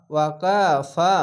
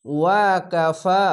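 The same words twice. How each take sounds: First: ওয়াকাফা slow, long final ফা; recited tajweed word. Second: ওয়াকাফা chanted slowly, last ফা stretched one alif; recited tajweed word. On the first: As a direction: chant ওয়াকাফা slowly. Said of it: "reads word after spelling it". (ওয়াকাফা টেনে পড়া) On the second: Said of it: "খাড়া জবর এক আলিফ টেনে পড়বেন।". (ওয়াকাফা ধীরে, ফা এক আলিফ টেনে) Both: Shown as a demonstration.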